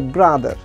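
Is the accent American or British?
American. It is said in an American accent.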